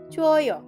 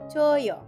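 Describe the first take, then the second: The two takes are said the same way.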